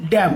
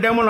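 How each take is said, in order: First: "ড্যাম" as one syllable ending on m; correct pronunciation. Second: "ড্যামন" with the final n sounded; mispronounced damn. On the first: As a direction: say "ড্যাম" with the n silent. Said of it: "উচ্চারণটা হচ্ছে". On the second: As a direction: say "ড্যামন" in two syllables, ending in n. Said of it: "এন এর উচ্চারণটা যদি করি". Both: Shown as a demonstration.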